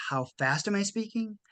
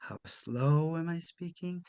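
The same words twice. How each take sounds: First: Quicker, lightly rushed delivery to show speed; quick demo pace. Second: Slow, drawn-out delivery, softer; slow demo. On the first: Coach demoing fast speech to executives, quick and brisk. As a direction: rattle it off a bit fast as a demo. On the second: Coach demoing slow speech to executives, slow and soft. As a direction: stretch each word out slowly to show slowness. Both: Shown as a demonstration.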